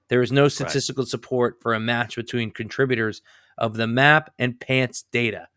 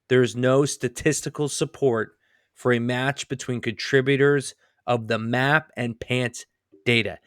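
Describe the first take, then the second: First: The sentence is read at a normal, quicker pace. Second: The sentence is read at a slower, deliberate pace.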